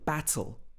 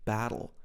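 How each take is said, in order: First: The T is pronounced clearly and fully. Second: The T is said in an American way. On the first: "saying the T sound" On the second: "the American English battle"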